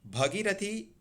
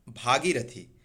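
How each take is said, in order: First: भगीरथी high, with short bha; wrong short vowel. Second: भागीरथी with long bhaa; correct long vowel. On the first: Teacher setting up a correction, high भगीरथी with short bha. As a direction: say भगीरथी rising, short first a. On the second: Teacher correcting students, भागीरथी with long bhaa. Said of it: "most important". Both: Shown as a demonstration.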